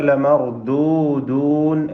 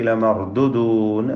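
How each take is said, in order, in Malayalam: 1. ആദ്യത്തെ 'u' സ്വരം ദീർഘമായി നീട്ടിപ്പറയുന്നു. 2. ആദ്യത്തെ 'u' സ്വരം ഹ്രസ്വമായി മുറിച്ചു പറയുന്നു. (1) "ലമർദൂദൂൻ എന്നതിലെ വാവ്" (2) "വാവ് ഒഴിവാക്കി ലമർദുദൂൻ എന്ന് പറയും"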